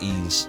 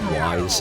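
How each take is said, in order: First: The name is said like 'ease', without a w. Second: The name is said like 'wise', with a w. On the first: The speaker calls it right. "it's pronounced Ease" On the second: The speaker calls it wrong. "I always called it Wise. Isn't that terrible?"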